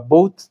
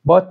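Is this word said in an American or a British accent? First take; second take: British; American. First: It is said with a British vowel. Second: It is said with an American vowel. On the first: "تلفظ انگلیسی" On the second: "تلفظ آمریکایی"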